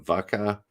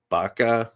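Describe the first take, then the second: First: The word begins with a V sound. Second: The word begins with a B sound. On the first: "I'll hear it as a V" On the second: "Some people pronounce the V as like a B"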